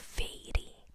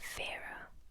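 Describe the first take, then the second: First: The name sounds like the English word fairy. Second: The name sounds like vera, with a v sound. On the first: It is read the way it is spelled. The speaker calls it wrong. "na minha cabeça eu falo Fairy, porque é assim que se escreve" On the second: It is the real pronunciation. The speaker calls it right. "eu acho que a pronúncia é Vera"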